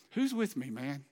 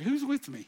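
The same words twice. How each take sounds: First: Said in the usual way. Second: Higher, louder "who's" driving the question; louder rally call. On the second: Acted. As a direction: push it harder this time. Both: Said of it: "I mean, seriously".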